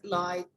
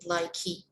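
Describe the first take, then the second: First: It ends without an extra vowel sound. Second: It ends with an extra vowel sound. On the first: The speaker calls it right. "That E is silent" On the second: The speaker calls it wrong. "It's not like"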